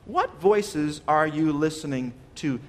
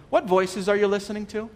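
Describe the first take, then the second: First: Slow, measured question to the congregation; weighty, drawn-out question; slow, deliberate repeat. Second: Said in the usual way. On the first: Real, not acted. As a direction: spread the question out word by word. Question repeated slowly for emphasis.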